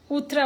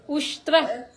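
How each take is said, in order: First: The word is said with an l sound. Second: The word is said with an s sound. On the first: The speaker calls it wrong. "Ele não conseguia pronunciar direito ustra" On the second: The speaker calls it right. "camelo em sânscrito é ustra"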